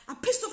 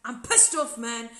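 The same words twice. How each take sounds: First: "pissed" shot up high and louder in a mock outburst; angry outburst. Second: Retelling his bitter confessional, mildly angry; a grumbling, irritated "pissed off"; bitter anger. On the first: To the producers in confessional, flaring louder in anger. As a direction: repeat it, now higher and harder. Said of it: "and I'd be angry". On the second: Retold or imitated. To the producers in confessional, mildly angry. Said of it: "And I would be bitter, and I'd be angry, and be like".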